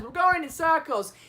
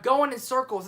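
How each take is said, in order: First: Higher-pitched quoted movie line; Frodo. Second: Said in the usual way. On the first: Retold or imitated. Frodo lost on the way to Mordor, light higher-pitched imitation. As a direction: lightly imitate a hobbit complaining. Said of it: "a line Frodo says". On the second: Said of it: "It's actually a line Frodo says".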